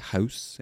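The vowel is said in a Canadian way. "a Canadian might say"

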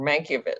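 The name is said with a European pronunciation. "very European and very probably accurate"

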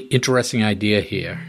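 It is spoken in a Boston accent.

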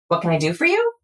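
The voice rises at the end. The speaker sounds unsure and lacks authority. The speaker calls it wrong. "it shouldn't be up, up, up, up"

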